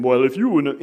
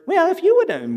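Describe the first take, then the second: First: Said in the usual way. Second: High, nasal-free mock imitation of the spouse; mocking voice impersonation. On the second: Shown as a demonstration. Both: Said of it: "the voice imper".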